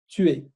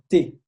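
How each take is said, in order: First: It is two separate syllables. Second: It is one contracted syllable.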